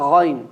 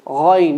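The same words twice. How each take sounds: First: Ghayn with a heavy, deep gh from the throat; right ghayn. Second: Ghayn said too light, with a thin front gh; the mistaken light ghayn, not heavy enough; wrong ghayn. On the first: Teacher shows students the correct ghayn, heavy and deep. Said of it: "not ghayn". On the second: Teacher warns students of a wrong ghayn, thin and light. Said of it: "be careful from saying ghayn". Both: Shown as a demonstration.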